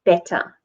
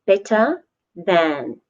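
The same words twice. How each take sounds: First: Said in the usual way. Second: Slow, careful model of the phrase. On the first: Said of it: "So good". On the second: Shown as a demonstration. Teacher slowly modelling better than for the class. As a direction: lay it out slowly for learners.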